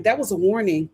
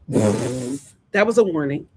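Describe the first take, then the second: First: Said in the usual way. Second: That was a warning dropped much lower and slow; low ominous repeat. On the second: Shown as a demonstration. Warning Amora about the butterfly sign, low and ominous. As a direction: intone it like a dark omen.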